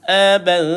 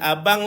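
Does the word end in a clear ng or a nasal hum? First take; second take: nasal hum; clear ng. First: The ending is a soft, hidden nasal hum. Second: The ending is a clear, full ng sound. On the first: The speaker calls it right. "Dah ada dengung kat situ" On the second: The speaker calls it wrong. "Bukan abang lah tuan"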